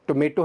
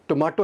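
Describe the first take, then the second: First: टोमेटो the American way, "to-MAY-to"; American pronunciation. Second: टोमेटो the British way, "to-MAA-to"; British pronunciation. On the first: Teacher contrasting accents for learners, American टोमेटो as "to-MAY-to". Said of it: "टोमेटो है American". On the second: Teacher contrasting accents for learners, British टोमेटो as "to-MAA-to". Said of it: "टोमेटो है British pronunciation". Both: Shown as a demonstration.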